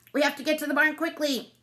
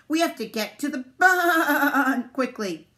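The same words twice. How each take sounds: First: High, brisk duck voice; high, even urgent call; quacking duck. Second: "barn" stretched into a long, loud baa; high, slow sheep bleat on "barn". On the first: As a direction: urge everyone along like an anxious duck. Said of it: "Duck quacked". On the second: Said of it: "See how he said barn? 'Cause they're sheep". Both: A narrator's reading.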